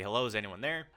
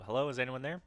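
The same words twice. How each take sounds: First: Said in the usual way. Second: Raised voice, calling into the woods. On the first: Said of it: "You say". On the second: Pretend. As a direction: call out to whoever is there. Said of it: "I call out to see if anyone needs help".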